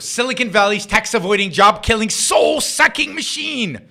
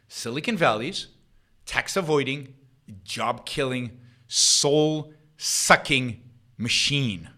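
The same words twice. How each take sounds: First: The phrase is read at a normal pace. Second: The phrase is read at a slow pace.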